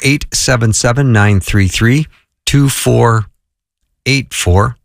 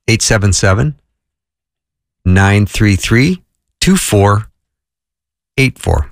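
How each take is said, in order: First: The number is read at normal speed. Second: The number is read slowly.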